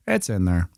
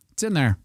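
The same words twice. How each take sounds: First: Said in the usual way. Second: High, falling lilt; higher-pitched, at usual volume; high-pitched confirmation. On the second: Real, not acted. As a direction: pipe it up high, then drop. Confirms the label is placed.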